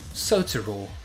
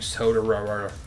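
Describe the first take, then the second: First: A t sound is pronounced crisply and clearly. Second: The t sounds are softened into quick flaps. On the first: "If I spoke British English, it would be easier because I could land on one of the T's" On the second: "I hate pronouncing your name"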